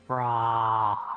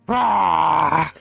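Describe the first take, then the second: First: It is said with little energy, tiredly. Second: It is said with strong, energetic emphasis.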